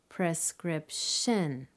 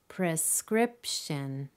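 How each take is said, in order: First: The stress is on the third syllable. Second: The stress is on the second syllable. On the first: The speaker calls it wrong. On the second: The speaker calls it right.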